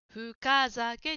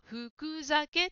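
First: The 'ka' sound is pronounced clearly. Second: The 'ka' sound is not pronounced clearly. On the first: The speaker calls it right. "かははっきり言いましょう。" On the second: The speaker calls it wrong. "ジムさんは深酒と言っているように聞こえました。"

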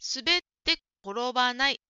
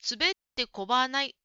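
First: Every syllable is said slowly and fully. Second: The 'ro' sound in korobanai is dropped. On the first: The speaker calls it right. "もうちょっとゆっくり言ってもいいかもしれませんね。" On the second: The speaker calls it wrong. "[name]さんは滑ってこばないと言っているように聞こえました。"

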